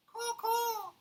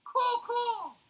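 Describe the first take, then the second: First: High cawing bird call; raven caw. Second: High, loud cawing; raven caw again. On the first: Raven answering Paddington, high caws. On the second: Raven calling again, louder caw. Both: Acted. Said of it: "said the raven".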